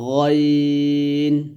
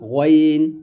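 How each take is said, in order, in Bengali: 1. এটি ঠোঁট গোল না করে বলা হয়। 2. এটি ঠোঁট গোল করে বলা হয়। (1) "সুন্দর করে বলতে হবে" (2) "এগুলো কিন্তু ভুল উচ্চারণ করছি আমি"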